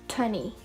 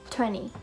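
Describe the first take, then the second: Both takes have the same delivery.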